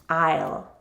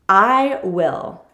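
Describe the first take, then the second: First: Will is reduced to a short ul sound. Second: Will is said as a full separate word.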